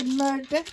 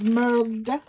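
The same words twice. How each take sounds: First: Light Scottish murder, rolled r; a hint of her Scottish husband's murder; Scottish accent. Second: Said in the usual way. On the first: Crafter imitating her husband's Scottish word, light Scottish accent. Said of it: "my half has got a Scottish accent". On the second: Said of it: "I love it when he says murder".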